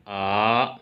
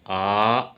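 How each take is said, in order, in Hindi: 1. पिच नीचे से ऊपर की ओर उठती है। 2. पिच नीचे से ऊपर की ओर उठती है।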